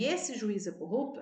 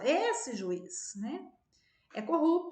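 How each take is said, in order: First: It runs on without a pause. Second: There is a pause after juiz.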